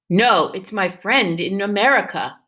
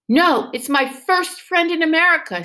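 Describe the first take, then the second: First: It is read in a plain voice. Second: It is read with excitement.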